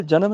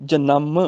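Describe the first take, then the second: First: ਜਨਮ said "ja-nam", single short m; mistaken short nasal. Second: ਜਨਮ said "ja-namm", second syllable long and lower; lengthened with tippi. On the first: Teacher shows the mistake, ਜਨਮ as short "janam". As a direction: say ਜਨਮ without holding the nasal. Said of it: "ਸਫਲ ਜਨਮ ਨਹੀਂ". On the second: Teacher corrects it, ਜਨਮ as held "janamm". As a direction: hold the m of ਜਨਮ, dropping in pitch. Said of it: "ਨੰਨੇ ਤੇ ਟਿੱਪੀ ਹੈਗੀ ਹੈ". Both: Shown as a demonstration.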